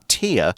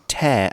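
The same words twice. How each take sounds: First: The vowel sounds like the word 'ear'. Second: The vowel sounds like the word 'air'. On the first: It means a drop from the eye. The speaker calls it wrong. "and not tear" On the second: It means to rip something apart. The speaker calls it right. "make sure you say tear"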